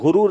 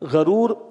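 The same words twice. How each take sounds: First: The first vowel is a 'u' sound. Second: The first vowel is an 'a' sound. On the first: The speaker calls it wrong. "یہ غرور نہیں ہے" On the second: The speaker calls it right. "غین پہ زبر ہے"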